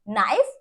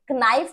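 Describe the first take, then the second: First: The word starts directly with the n sound. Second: A k sound is said before the n. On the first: The speaker calls it right. "क्या बोलेंगे" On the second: The speaker calls it wrong. "कनाइफ नहीं बोलेंगे"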